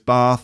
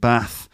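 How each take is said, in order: First: It is spoken in a southern English accent. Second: It is spoken in a northern English accent.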